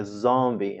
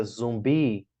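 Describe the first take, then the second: First: "zombie" stressed on the first syllable, with an O sound; English first-syllable stress. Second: "zumbi" stressed on the second syllable; Portuguese end stress. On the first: Teacher showing English pronunciation, first syllable of "zombie" stronger. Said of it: "a primeira é mais forte". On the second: Teacher contrasting Portuguese zumbi with English, stress on second syllable of "zumbi". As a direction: lean on the last syllable of "zumbi". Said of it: "segunda sílaba é mais forte". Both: Shown as a demonstration.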